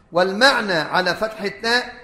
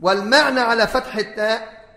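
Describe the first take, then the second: No difference in how they are said.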